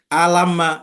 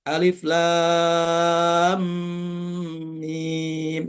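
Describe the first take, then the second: First: The letters are blended into one word. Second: Three letter names are said separately. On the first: The speaker calls it wrong. "Nggak boleh alamma misalnya" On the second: The speaker calls it right. "harus dibaca alif lam mim"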